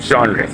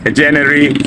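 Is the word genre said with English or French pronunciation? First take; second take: French; English. First: The word is said with French sounds. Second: The word is read with English spelling sounds. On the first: "they use the French pronunciation and say genre" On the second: "you can tell in English"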